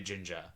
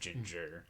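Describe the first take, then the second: First: The final R sound is dropped. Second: The final R sound is pronounced hard. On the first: The speaker calls it right. "we have to say ginger" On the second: The speaker calls it wrong. "instead of ginger. You can't say the hard R"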